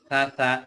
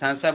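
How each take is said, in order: First: The consonant is a thinner, softer s sound. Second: The consonant is a plain, sharp s sound. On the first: The speaker calls it right. "খেয়াল রাখতে হবে" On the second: The speaker calls it wrong. "সাসা বললে কিন্তু সিনের মতো হয়ে যাবে"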